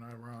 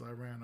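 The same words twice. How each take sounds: First: "Iran" with open ah, eye-RON. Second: "Iran" with short a, eye-RAN. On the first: Co-host offering the other option, soft "Iran" as eye-RON. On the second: Co-host asking which is right, soft "Iran" as eye-RAN. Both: Shown as a demonstration. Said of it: "I don't know if I'm pronouncing it".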